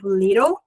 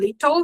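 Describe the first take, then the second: First: It is said with an American accent. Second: It is said with a British accent.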